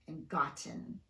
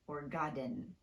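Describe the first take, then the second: First: The T is fully pronounced. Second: The T is tapped like a quick D. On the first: The speaker calls it right. "it's safe to just fully pronounce the T" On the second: The speaker calls it wrong. "but not"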